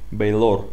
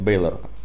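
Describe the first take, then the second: First: The stress is on the second syllable. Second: The stress is on the first syllable. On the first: The speaker calls it wrong. "Нет" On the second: The speaker calls it right. "Ударение на Эй"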